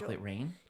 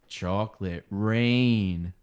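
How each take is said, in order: First: It is said in a normal everyday speaking voice. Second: It is said in a put-on radio announcer voice. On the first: "like a normal individual" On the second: "Radio voice"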